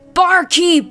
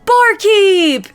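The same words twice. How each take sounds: First: It is shouted in a flat, unmerry tone. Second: It is shouted in a cheerful, merry tone. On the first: The speaker calls it wrong. "That was not merry" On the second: The speaker calls it right. "he cries in a merry tone"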